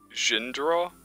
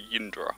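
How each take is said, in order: First: The name begins with a J sound. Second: The name begins with a Y sound. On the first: "would that be pronounced Jindra or Yindra?" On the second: "Are J's all pronounced as Y?"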